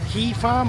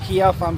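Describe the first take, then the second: First: Kea is said as one syllable, like key. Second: Kea is said as two syllables, like kia. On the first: "pronounce it as Key Farm" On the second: "or Kia Farm"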